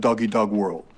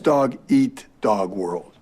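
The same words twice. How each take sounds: First: The phrase sounds like doggy dog world. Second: The phrase sounds like dog eat dog world. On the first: The speaker calls it wrong. "last night you said" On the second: The speaker calls it right. "it's dog-eat-dog world"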